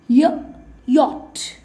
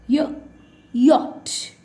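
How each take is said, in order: The two takes are said the same way.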